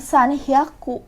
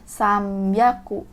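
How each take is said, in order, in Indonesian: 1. Diucapkan sebagai dua kata terpisah, san dan hyaku. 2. Diucapkan sebagai satu kata gabungan, samyaku. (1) "dia bukan san hyaku" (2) "Ada penyebutan khusus"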